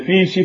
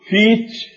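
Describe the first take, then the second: First: The middle consonant is a plain 'sh' sound. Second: The middle consonant is a 'ch' sound. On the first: "لو تكلمنا بهذه الكلمة فيشي" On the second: "فنقول فيتش والديتش بهذه اللهجة"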